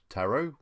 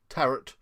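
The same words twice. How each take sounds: First: The word ends in an 'oh' sound. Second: The word ends in an 'uh' sound. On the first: "Tarot, wheelbarrow" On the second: "Tarot, carrot"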